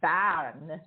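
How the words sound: The name is said with a Swiss German pronunciation. "or actually by a Swiss German"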